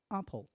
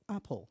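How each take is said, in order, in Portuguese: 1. A primeira vogal soa como um 'ah' aberto, no estilo britânico. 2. A primeira vogal soa como um 'ah' aberto, no estilo britânico.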